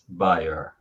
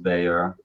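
First: The name is said the European way. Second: The name is said the American way. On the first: This is how people elsewhere say the name. "With everyone else, pretty much, it's Bayer" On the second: This is how Americans say the name. "with Americans, it's Bayer"

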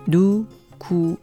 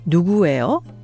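First: It is said slowly. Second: It is said at natural speed.

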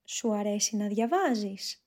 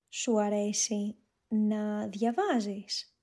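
First: It is spoken at a natural, faster pace. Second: It is spoken at a slow pace. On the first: "a more natural speed" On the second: "One time slowly"

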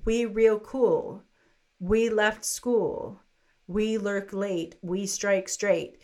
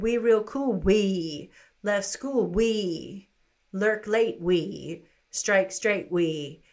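First: Each 'we' begins a new phrase after a pause. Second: Each 'we' is attached to the previous phrase.

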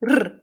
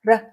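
First: The R is a rapid rolled trill. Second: The R is a single quick tap. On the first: "or even a trill r" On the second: "as a tap"

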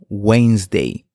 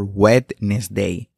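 First: The middle D sound is left out. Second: The middle D sound is pronounced. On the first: The speaker calls it right. "Omitimos la D y pronunciamos Wednesday" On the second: The speaker calls it wrong. "Nunca Wednesday o Wednesday"

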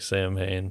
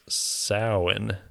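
First: The word sounds like 'sam-hain', with 'm' and 'h'. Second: The word sounds like 'sow-in', with no 'm' or 'h'. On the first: This is how the spelling looks. "But it looks like Samhain" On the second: This is the accepted pronunciation. "on everything it says the pronunciation of the word was Samhain"

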